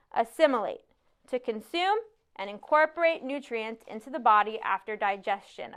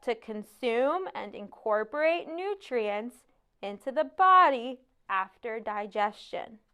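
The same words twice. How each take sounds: First: Confident recited definition at a natural pace. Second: Slow, deliberate recital, every word drawn out; slow, careful American. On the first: Pupil defines a word for the teacher, confidently. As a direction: answer the teacher with assurance. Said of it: "I say confidently". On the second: Pupil repeats his definition to be understood, slowly and carefully. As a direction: enunciate slowly to sound more American. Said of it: "slowly swirling my tongue around the words to make them sound more American". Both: A narrator's reading.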